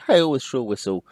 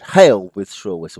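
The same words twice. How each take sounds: First: The words flow on without a pause. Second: There is a short pause after "hail". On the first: The speaker calls it wrong. "We don't say hail with shrill whistle, you know, flowing on" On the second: The speaker calls it right. "we stop to go to the next line"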